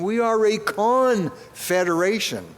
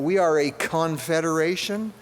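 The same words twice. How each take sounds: First: The syllable con is strongly emphasized. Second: The word confederation is said with ordinary stress.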